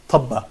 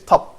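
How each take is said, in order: First: The word ends with an added vowel. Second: The word ends on a bare consonant. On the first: The speaker calls it wrong. "We don't say tabba" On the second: The speaker calls it right. "ba doesn't have any vowel here. So we say tab"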